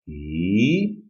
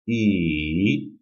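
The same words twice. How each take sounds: First: The pitch rises from low to high. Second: The pitch dips down, then rises slightly. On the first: "The second tone is a rising tone" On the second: "descending and then rising"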